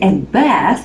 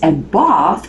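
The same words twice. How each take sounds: First: It is said with an American accent. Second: It is said with a British accent. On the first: "the American way, American pronunciation" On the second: "the British one"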